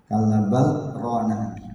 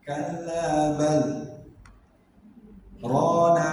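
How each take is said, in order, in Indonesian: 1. Ada henti singkat setelah 'bal'. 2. Ada henti panjang setelah 'bal'. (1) "Syatibiyah empat tempat dia ada sabta" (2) "Berhentinya nggak boleh lama-lama ya. Nggak boleh gini"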